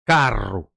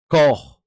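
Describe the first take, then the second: First: The r sound is strongly rolled. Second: The r sound is not rolled. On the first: This is how it is said on the speaker's home island. "you gotta roll that the, the, the tongue" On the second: This is how it is said on other islands. "when you go to other places, they say koch"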